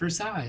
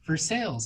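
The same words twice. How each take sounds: First: It is said with a non-Kentucky pronunciation. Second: It is said with the local Kentucky pronunciation. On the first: This is not how people in Kentucky say the name. The speaker calls it wrong. "not Versailles" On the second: This is how people in Kentucky say the name. The speaker calls it right. "I'm still getting used to Kentucky, where it's like Versailles"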